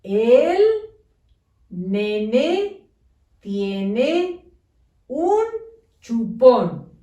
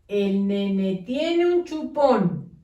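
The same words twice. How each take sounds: First: Each word separated by a pause; slow dictation, one word at a time; spaced words. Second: Squashed, no pauses; run together. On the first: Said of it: "Debe de decir". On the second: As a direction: read as one lumped string. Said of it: "¿Se entiende lo que dice?". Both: Shown as a demonstration.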